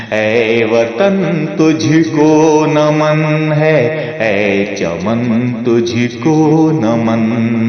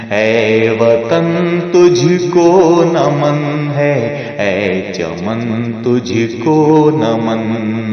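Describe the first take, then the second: The two takes are said the same way.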